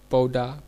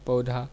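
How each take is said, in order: First: पौधा said "pauda", with unbreathed d; deaspirated dialect form. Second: Said in the usual way. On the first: Shown as a demonstration. Lecturer showing Kauravi speech, पौधा deaspirated to "pauda". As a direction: drop the aspiration in पौधा. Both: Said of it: "महाप्राण के अल्पप्राण कर देने".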